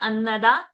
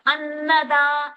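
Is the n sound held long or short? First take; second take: short; long. First: The n sound is single and short. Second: The n sound is doubled and held long. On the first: The speaker calls it wrong. "not annada" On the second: The speaker calls it right. "a will have a pressure. ... So to get the double n sound"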